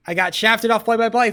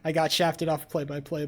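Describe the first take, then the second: First: Much higher and louder, a real furious outburst; furious yell. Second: Said in the usual way. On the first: Real, not acted. Streamer yelling to chat about losing play-by-play, furious shout.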